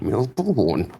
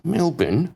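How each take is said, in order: First: It is said with an American pronunciation. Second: It is said with the local Australian pronunciation. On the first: The speaker calls it wrong. "not Melbourne? ... when Americans come here and say Melbourne" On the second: The speaker calls it right. "it's Melbourne"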